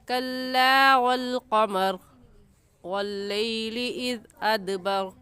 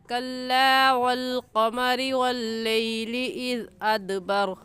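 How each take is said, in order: First: The reciter stops after qamar before continuing. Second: Qamari runs straight into the next word. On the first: "आप वक़फ़ भी कर सकते हैं" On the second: "मिलाकर भी पढ़ सकते हैं"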